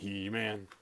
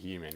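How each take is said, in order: First: The name is said loudly and dramatically. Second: The name is said plainly, without emphasis. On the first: The speaker calls it right. "You say He-Man" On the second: The speaker calls it wrong. "you can't just say He-Man"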